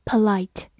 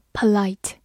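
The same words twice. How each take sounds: The two takes are said the same way.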